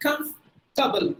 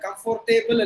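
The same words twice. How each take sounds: First: Comfortable very slow, cumf-tuh-bul, OR silent; teacher drills the correct form slowly; right way. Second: Comfortable with every letter, com-for-tay-bul; teacher shows the spelled-out mistake; wrong way. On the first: Correct pronunciation, very slow. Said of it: "you have to say". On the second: Wrong full spelling pronunciation. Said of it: "comfortable இல்ல". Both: Shown as a demonstration.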